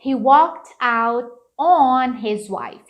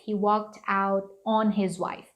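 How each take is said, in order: First: "on" punched long and loud; slow sentence, leaning hard on "on"; stress on ON. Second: Said in the usual way. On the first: Shown as a demonstration. Teacher showing the added word, heavy stress on "on". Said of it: "eles costumam botar esse on aqui". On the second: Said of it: "Então, fica".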